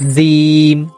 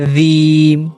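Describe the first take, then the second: The two takes are said the same way.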